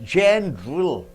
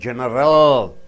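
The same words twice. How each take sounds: First: A middle vowel is squeezed out. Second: Every middle vowel is pronounced separately. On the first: The speaker calls it right. "A is squeezed out" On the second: The speaker calls it wrong. "You don't say general"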